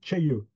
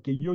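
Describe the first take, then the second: First: It starts with a ch-like sound. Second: It starts with a plain k sound. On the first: The speaker calls it right. "ça se dit tcheilleux" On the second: The speaker calls it wrong. "ça se dit pas queilleux"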